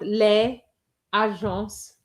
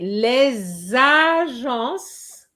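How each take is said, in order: First: There is a stop after les, with no linking. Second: The s of les links into agences. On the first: The speaker calls it wrong. "and not les agences" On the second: The speaker calls it right. "you have to say les agences"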